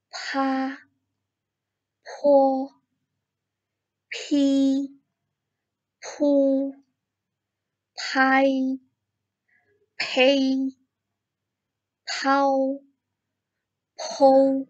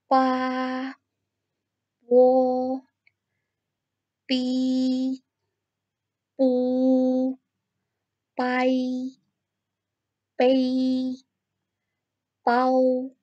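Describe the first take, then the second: First: "Pa" to "pou" with a strong puff of air after the p, high level first tone; aspirated ph. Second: "Pa" to "pau" as unaspirated p, high level first tone; a crisp p with no puff of air, each syllable held high and even; pinyin p, unaspirated. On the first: Teacher showing students the aspirated p. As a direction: breathe a burst of air through each p, held high. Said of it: "tambahkan H di tengahnya". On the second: Teacher reading pinyin syllables to students, unaspirated and high. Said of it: "kita coba baca sama-sama ya". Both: Shown as a demonstration.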